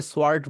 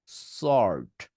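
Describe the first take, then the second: First: সোয়ার্ড with a w, "swart"; wrong sword. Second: সর্ট with silent w, very slow; stretched, lower "sooort"; correct sword. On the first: Teacher shows students what not to say, "swart". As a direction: sound the w: swart. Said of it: "সোয়ার্ড বলবেন না". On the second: Teacher models it for students, long w-less sort. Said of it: "এটাকে এইভাবে বলবেন". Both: Shown as a demonstration.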